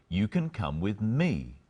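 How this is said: The stress is on the word me.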